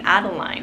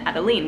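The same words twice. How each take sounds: First: The name is said with an English pronunciation. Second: The name is said with a French pronunciation. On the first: This is how most people would say it. "everybody's gonna probably pronounce her name" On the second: This is the pronunciation the parent prefers. "I really love the pronunciation Adeline, which is more French"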